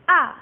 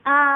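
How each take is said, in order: First: The pitch drops sharply, sounding abrupt. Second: The pitch stays high and level. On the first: "Yang keempat nadanya turun kayak orang marah" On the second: "nada pertama itu datar tapi tinggi"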